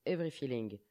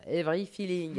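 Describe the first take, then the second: First: English title in a French accent. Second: Hammed-up French accent on English words; playful French accent. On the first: Real, not acted. Host announces the song title, French accent. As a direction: softly read the title with French vowels. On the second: Shown as a demonstration. Host mocks own pronunciation of song title, playful French accent. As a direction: say the title very French, amused. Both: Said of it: "Bien avec l'accent français, ça".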